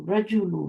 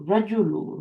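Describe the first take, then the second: First: The first vowel is short. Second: The first vowel is short.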